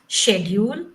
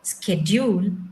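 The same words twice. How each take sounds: First: It is said with a British pronunciation. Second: It is said with an American pronunciation. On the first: "schedule is a U K English" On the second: "schedule is American English"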